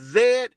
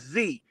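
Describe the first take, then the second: First: The letter is said the Canadian way. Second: The letter is said the American way. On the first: The speaker is from Canada. "Canadians pronounce it as Z" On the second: The speaker is from the United States. "we pronounce it as Z"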